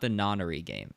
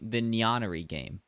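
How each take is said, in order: First: The name begins with a plain 'non' sound. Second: The name begins with a 'nyan' sound. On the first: The speaker calls it right. "not the Nonnery game" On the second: The speaker calls it wrong. "I keep saying it with a Y"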